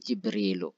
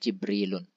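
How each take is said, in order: First: The word ends on a vowel without n. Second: The word ends with an added n sound. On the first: The speaker calls it right. "tapi Jibrilu" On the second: The speaker calls it wrong. "tidak Jibrilun"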